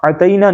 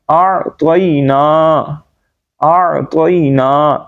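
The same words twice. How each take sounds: First: "اعطینا" said quickly with thin t; light, short "اعطینا", no drawn vowels; wrong version. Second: "اعطینا" slow, throaty ayn and heavy t; correct version. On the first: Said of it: "اعطینا نہیں بلکہ". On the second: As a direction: separate and stretch each syllable of "اعطینا". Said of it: "نہیں بلکہ". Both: Shown as a demonstration.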